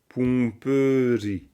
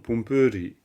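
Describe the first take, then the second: First: The word is read slowly and carefully. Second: The word is said at normal speed. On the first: "Si on le lit lentement" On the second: "Mais sinon"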